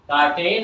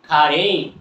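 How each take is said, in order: First: The final syllable is a full 'tain' sound. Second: The final syllable is reduced to a short 'n'. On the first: The speaker calls it wrong. "কার্টেন আর আমরা বলবো না" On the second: The speaker calls it right. "আমরা কি বলবো, খাড়েন"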